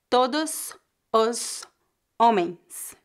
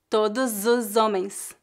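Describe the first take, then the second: First: Each word is said separately, without linking. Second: The words run together, with S sounding like Z. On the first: The speaker calls it wrong. "raramente alguém vai dizer" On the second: The speaker calls it right. "A pronúncia mais natural seria"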